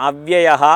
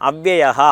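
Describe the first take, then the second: The two takes are said the same way.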